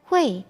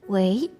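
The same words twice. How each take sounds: First: The word is said with a falling tone. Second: The word is said with a rising tone. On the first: This is the word's basic form. "nada aslinya itu nada keempat" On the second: This is a greeting on the telephone. "kita biasanya pakai nada dua, menjadi"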